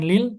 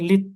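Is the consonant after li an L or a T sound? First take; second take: L; T. First: The L sound is kept before the next word. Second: The L merges directly into a doubled T. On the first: The speaker calls it wrong. "bukan lil" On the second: The speaker calls it right. "tapi lit. Langsung ke taknya"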